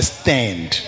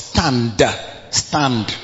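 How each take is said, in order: First: The word is said in an American accent. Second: The word is said in a non-American accent.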